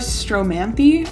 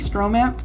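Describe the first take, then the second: First: The word ends with a final vowel sound. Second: The word ends on a consonant sound. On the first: This is thought to be the proper pronunciation. "I think that's how you say it" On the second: This is the speaker's preferred pronunciation. "I say Stromanth because it sounds better"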